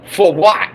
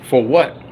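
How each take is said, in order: First: Raised, pushed-up repeat of the question. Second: Said in the usual way. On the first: Real, not acted. Angry fan demands an answer from the owners, raised voice. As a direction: throw it back at them harder.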